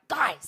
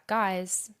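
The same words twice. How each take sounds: First: It is said in a harsh, gruff tone. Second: It is said in a friendly, laid-back tone.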